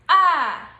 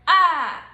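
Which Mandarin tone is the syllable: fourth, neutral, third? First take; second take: fourth; fourth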